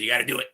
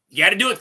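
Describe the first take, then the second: First: Said in the usual way. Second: Higher and louder, pushing the point; rousing call to action; louder, emphatic repeat. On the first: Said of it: "You gotta do it, folks". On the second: Shown as a demonstration. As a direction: hit it harder, urging the audience.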